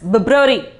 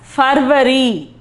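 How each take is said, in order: First: It is said with an English pronunciation. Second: It is said with a Hindi pronunciation. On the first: "in English we call it as February" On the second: "but in Hindi it is called as February"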